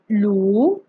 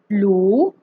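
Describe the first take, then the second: First: The pitch rises from mid to high. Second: The same.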